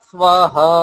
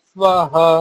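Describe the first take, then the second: No difference in how they are said.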